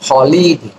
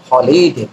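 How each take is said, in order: First: The word begins with an audible h sound. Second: The word begins with an audible h sound.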